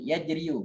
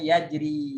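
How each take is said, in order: First: The word ends with an added 'yu' syllable. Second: The word ends on 'ri' with nothing added. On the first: The final letter carries a spoken u vowel. The speaker calls it wrong. "kalau didhommakan uh, sulit ya, membacanya sulit" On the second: The final vowel is left unspoken. The speaker calls it right.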